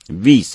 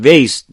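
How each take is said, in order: First: The name is said in its original form. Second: The name is said in its common popular form. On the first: This is the original form of the name. The speaker calls it right. "اصلش ویس هست" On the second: Many people say it this way. The speaker calls it wrong. "خیلی هم ویس تلفظ میکنن"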